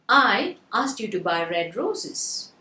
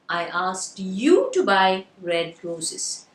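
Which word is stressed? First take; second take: I; you. First: The word "I" is stressed. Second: The word "you" is stressed. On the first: "So the first word I was stressed" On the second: "So the stress is on the word. Very good. You"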